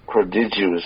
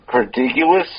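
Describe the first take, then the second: First: "prodigious" said as pruh-DIJ-uh, soft j, falling and quieter; corrected pronunciation. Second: "prodigious" said as pruh-DIG-yuh, hard g, rising; a wrong first try at "prodigious"; stumbling pronunciation. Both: Shown as a demonstration.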